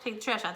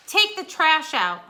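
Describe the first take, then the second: First: Said in the usual way. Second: Loud, slow firm order; commanding demand. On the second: Shown as a demonstration. Teacher demonstrating an imperative sentence, commanding. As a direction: bark it as a command. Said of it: "those can end in exclamation marks and periods".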